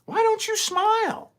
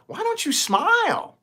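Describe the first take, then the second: First: Much higher sing-song mock voice; mocking stranger. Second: High mocking stranger's voice; stranger's condescending question, mimicked high. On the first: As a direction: mimic a stranger in line, high and patronizing. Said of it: "somebody will say". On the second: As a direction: squeak it like a nosy stranger. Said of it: "random strangers walk up to me and say".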